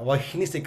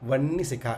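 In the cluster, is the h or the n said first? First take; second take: h first; n first. First: The h sound comes before the n. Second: The n sound comes before the h. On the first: The speaker calls it wrong. "చాలామంది తెలియక అలాగే పలుకుతాం" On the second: The speaker calls it right. "నకారం ముందు వచ్చి తర్వాత హకారం వస్తుంది"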